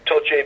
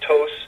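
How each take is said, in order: First: The surname is said the original Italian way. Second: The surname is said in a shortened, simplified form. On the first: This is the original family form of the name. "Toce is Italian" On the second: The name was changed after emigrating. "names get shortened or they get uh, simplified"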